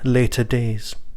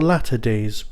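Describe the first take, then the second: First: The first word sounds like 'later'. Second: The first word sounds like 'latter'. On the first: The speaker calls it wrong. "getting the pronunciation of the title wrong" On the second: The speaker calls it right. "There is an extra T in there, so of course it's Latter Days"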